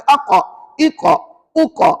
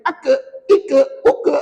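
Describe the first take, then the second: First: "aqa, iqa, uqa" with a heavy back-of-tongue q; thick qaf. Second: "aka, ika, uka" with a thin k and light vowel, higher; thin the heavy q down to a light k in "aka, ika, uka"; thinned letter. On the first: Teacher modelling correct qaf for women, thick "aqa, iqa, uqa". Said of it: "Kena baca". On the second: Teacher warning against thinning qaf, thin "aka, ika, uka". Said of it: "jangan cuba-cuba menipiskan dia". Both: Shown as a demonstration.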